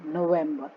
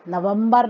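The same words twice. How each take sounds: First: नवंबर as no-VEM-buh; English pronunciation. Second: नवंबर as na-vam-BAR, final R sounded; नवंबर with flattened vowels and a hard final R; wrong Hindi-style vowels. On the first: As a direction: say नवंबर with an E in the middle, R dropped. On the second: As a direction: mispronounce नवंबर as na-VUM-bar. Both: Shown as a demonstration. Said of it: "नवंबर नहीं".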